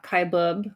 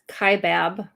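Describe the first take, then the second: First: The second syllable sounds like 'bub'. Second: The second syllable sounds like 'bab'. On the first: The speaker calls it wrong. "not Kaibub, which is interesting that they mispronounced it" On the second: The speaker calls it right. "It's actually pronounced Kaibab"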